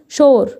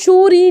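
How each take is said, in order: First: The word ends without any extra vowel. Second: The word ends with an extra 'ee' vowel. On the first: The speaker calls it right. "هنا عندي ايه شور" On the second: The speaker calls it wrong. "مفيش حاجه اسمها شوري دي"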